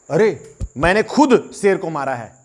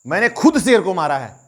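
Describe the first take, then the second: First: "खुद" pressed hard and drawn out, slowly; stress on खुद. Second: "खुद" stressed in a quicker repeat. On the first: Hunter boasting he killed the lion himself, slow stress on "खुद". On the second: Hunter repeats his boast, "खुद" stressed, brisker. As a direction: hit "खुद" again, brisker. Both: Shown as a demonstration. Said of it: "मैं इस बात पे जोर डाल रहा हूं".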